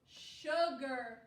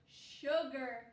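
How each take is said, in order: No difference in how they are said.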